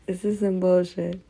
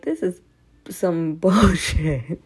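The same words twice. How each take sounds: First: Said in the usual way. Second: Slow laughing "bullshit"; laughing exasperation. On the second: Retold or imitated. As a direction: drag it out through a laugh. Quoting her own frustration.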